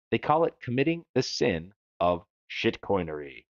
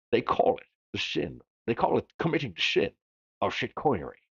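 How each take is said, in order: First: Said in the usual way. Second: Slurred-s Scottish accent, "sin" said as "shin"; Scottish movie-star impression with sh for s; Sean Connery. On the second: Shown as a demonstration. Host redoing a quote for fun, Scottish star accent. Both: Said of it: "feels better to say it that way".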